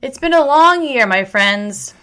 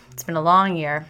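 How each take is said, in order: First: "It's been a long year" pushed out high and loud; emotional outburst. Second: Said in the usual way. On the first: Real, not acted. Telling her viewers, swept up in emotion, loud and high. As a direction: let it burst out, louder and higher. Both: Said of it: "I'm getting really emotional".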